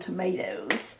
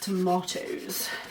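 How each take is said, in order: First: It is said with an American accent. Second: It is said with a British accent.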